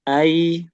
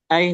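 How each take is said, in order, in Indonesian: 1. Bunyi luncurnya ditarik panjang dan mengalir halus. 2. Bunyi luncurnya diucapkan cepat dan dipotong pendek. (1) "Harus dialirkan dulu" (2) "jangan cepet-cepet, jangan ai"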